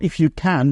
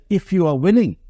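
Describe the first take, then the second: First: "you" pushed up and "can" falling, set against "willing"; the man doubts the power itself with "can"; stress on YOU and CAN. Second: "willing" leaned on and falling, the key word; they never doubted he could, only if he "willing"; stress on WILLING. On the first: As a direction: land on "can" as the doubting word. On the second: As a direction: press the word "willing" as the real question. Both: Shown as a demonstration.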